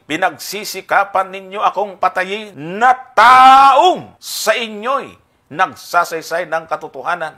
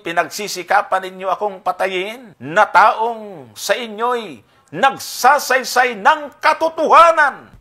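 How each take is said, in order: First: The word taong carries strong emphasis. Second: The word taong carries no special emphasis. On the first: Christ is proving that he is only a man, not God. The speaker calls it wrong. "fallacy of accent, yung maling pagdidiin. ... So saan ang aking accent? Taong!" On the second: Christ is proving that he was truly sent by God. The speaker calls it right. "Ito naman yung tamang accent"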